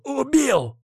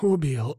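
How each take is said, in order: First: High, exultant shout of triumph; joyful cry. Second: Said in the usual way. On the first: Acted. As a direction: burst out in wild glee. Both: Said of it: "В голове бушевала чужая мне радость".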